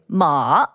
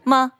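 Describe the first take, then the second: First: The pitch dips low and then rises. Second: The syllable is short and light, unstressed. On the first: It means horse. "and that means horse" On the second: It marks a question. "which means a question mark"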